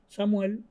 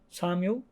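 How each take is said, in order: First: The name is pronounced the Spanish way. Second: The name is pronounced the English way. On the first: "En español" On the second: "en inglés"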